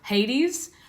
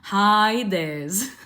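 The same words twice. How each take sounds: First: The name is said with an English pronunciation. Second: The name is said with a classical Greek pronunciation.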